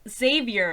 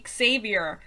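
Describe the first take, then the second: First: The name starts with a plain Z sound. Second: The name starts with a KS sound. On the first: "you will also say Xavier in English" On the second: "if you want to pronounce the X, you would say Xavier"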